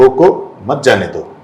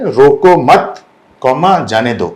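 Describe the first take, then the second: First: रोको set apart, then मत जाने दो run together; pause after रोको. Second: रोको मत said as one unit, then a break before जाने दो; group रोको with मत, speak the comma, then जाने दो; pause after मत. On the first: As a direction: break straight after रोको, falling away on जाने दो. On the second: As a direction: stress रोको मत together, drop on जाने दो. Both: Shown as a demonstration. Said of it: "comma shift कर देता है".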